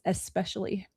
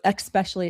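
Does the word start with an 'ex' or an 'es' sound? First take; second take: es; ex. First: The word begins with an 'es' sound. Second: The word begins with an 'ex' sound. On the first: The speaker calls it right. "it's especially" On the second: The speaker calls it wrong. "There is no X in it"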